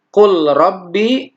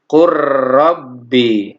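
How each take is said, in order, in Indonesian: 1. Bunyi l tetap dipertahankan sebelum r. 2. Bunyi l melebur ke dalam r.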